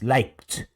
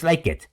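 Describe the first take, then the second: First: The ending is just a final T sound. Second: The ending is said as an extra syllable. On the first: The speaker calls it right. "Termina en T el sonido" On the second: The speaker calls it wrong. "No es like it"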